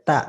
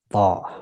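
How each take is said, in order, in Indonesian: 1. Vokalnya terdengar seperti a yang tipis dan terbuka. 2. Vokalnya terdengar seperti o yang membulat. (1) "Po tidak dibaca ta ya" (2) "Dia ketika fathah maka dibacanya po"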